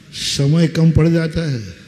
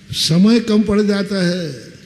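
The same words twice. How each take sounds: First: कम leaned on, falling; stress on कम. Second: समय stressed, slow and falling; slow, emphatic समय. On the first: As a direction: push the word कम, then fall. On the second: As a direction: slowly weigh समय. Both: Shown as a demonstration.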